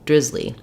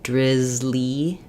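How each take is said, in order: First: The word is said at normal speed. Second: The word is said slowly with lengthened vowels.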